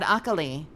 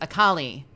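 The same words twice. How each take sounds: First: The name is said with a Japanese-style pronunciation. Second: The name is said with an English-style pronunciation. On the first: This is how the speaker always said the name. "I always said" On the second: This is how the game says the name. "the game says ... They just didn't use the Japanese pronunciation"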